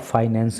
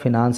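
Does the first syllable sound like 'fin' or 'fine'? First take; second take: fine; fin. First: The first vowel is long, as in 'fine'. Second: The first vowel is short, as in 'fin'. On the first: "इसको आप फाइनेंस भी बोल सकते हो" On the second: "इस word को आप फिनांस भी पढ़ सकते हो"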